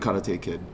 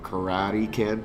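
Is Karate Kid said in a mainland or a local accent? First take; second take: local; mainland. First: It is said in the speaker's local pronunciation. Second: It is said in a mainland pronunciation.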